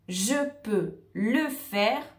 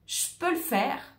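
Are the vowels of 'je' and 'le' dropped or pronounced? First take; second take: pronounced; dropped. First: The vowels in je and le are fully pronounced. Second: The vowels in je and le are dropped. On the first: The speaker calls it wrong. "on ne va pas dire cette phrase de cette manière" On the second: The speaker calls it right. "on a perdu le E de je peux"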